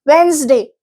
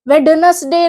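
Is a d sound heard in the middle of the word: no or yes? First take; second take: no; yes. First: The d sound is silent. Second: The d sound is pronounced. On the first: The speaker calls it right. "वेंसडे होता है, डी बोला नहीं जाता" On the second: The speaker calls it wrong. "वेडनसडे नहीं होता"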